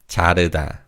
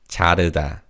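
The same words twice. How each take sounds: No difference in how they are said.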